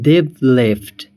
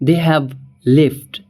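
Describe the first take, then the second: First: They have is shortened to one syllable. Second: They have is said as two full words.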